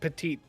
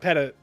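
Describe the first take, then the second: First: The word ends with a long 'teet' sound. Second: The word sounds like the phrase 'pet it'. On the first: The speaker calls it wrong. "It's not petite" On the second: The speaker calls it right. "we just call it petit"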